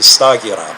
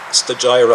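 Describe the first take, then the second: First: The name has a modern Greek pronunciation. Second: The name has an English pronunciation. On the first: "in modern Greek. You would pronounce it Stagira" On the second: "Stagira, I guess, in, in English"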